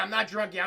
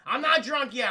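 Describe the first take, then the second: First: Said in the usual way. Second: "not" hit hard and a bit louder; emphatic denial. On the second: Shown as a demonstration. Telling chat he isn't drunk, "not" stressed. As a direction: insist on "not" in "I'm not drunk yet".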